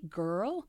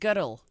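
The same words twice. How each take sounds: First: The word is said in an American accent. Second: The word is said in a Scottish accent. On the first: "but can you say girl?" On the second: "because I came from Scotland, so I said girl"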